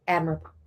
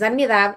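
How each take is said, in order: First: The word has English vowels and stress. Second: The word has Spanish vowels and stress. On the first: "Y también it's admirable" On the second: "sometimes you're like, es admirable"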